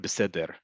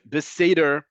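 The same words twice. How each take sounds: First: It is said with an Israeli accent. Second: It is said with an American accent. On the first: "however you want to say the letter resh" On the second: "it's going to sound like they're making fun of the American accent"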